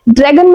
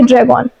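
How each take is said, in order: First: The two words run together into one word. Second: The two words are kept apart clearly. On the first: The speaker calls it wrong. "ड्रैगन मत बोलना" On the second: The speaker calls it right. "बोलिए ड्रैग ऑन"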